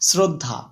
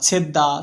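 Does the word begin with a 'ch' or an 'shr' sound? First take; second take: shr; ch. First: The word begins with an shr sound. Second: The word begins with a ch sound. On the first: This is the original learned form of the word. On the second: This is the colloquial semi-learned form of the word.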